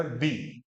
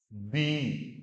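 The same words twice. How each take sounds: First: "दी" said short, like दि; short vowel syllable. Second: "दी" with the vowel held long; long vowel syllable. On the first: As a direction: keep the vowel of "दी" brief. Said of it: "ये दी हो गया". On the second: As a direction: stretch "दी" over two beats. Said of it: "और ये हो गया आपका". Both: Shown as a demonstration.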